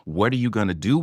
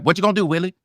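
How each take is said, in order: First: Said in the usual way. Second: Higher, loose throwaway line reading; throwaway, don't-care. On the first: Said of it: "the line is scripted as". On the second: Shown as a demonstration. Actor at an audition wanting it over with, throwaway. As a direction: toss the line off like you don't give a damn. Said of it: "I don't give a fuck".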